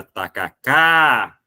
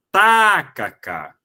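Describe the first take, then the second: First: Tacacá with the final cá drawn out long; last syllable stretched. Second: Tacacá with a long drawn-out first syllable ta; first syllable stretched. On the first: Teacher stretches the final syllable to show the oxytone. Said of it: "bateu exatamente com aquilo". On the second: Teacher shows the wrong stress by drawing out the first syllable. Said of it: "prolongando a antepenúltima sílaba". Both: Shown as a demonstration.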